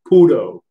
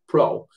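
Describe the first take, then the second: First: It is said with two syllables, Japanese style. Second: It is said as one syllable, English style. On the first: "in Japanese pronunciation, we would say puro" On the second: "We would say pro pro"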